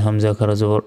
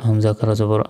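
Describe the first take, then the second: The two takes are said the same way.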